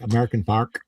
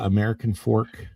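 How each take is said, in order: First: Fork is said with an 'ar' vowel, like 'fark'. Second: Fork is said with a standard 'or' vowel.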